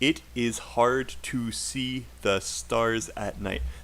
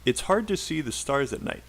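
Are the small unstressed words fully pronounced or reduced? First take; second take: fully pronounced; reduced. First: Every small word is said fully and separately. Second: The small unstressed words are short and reduced. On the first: The speaker calls it wrong. "We do not say, That is wrong" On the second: The speaker calls it right. "at full speed"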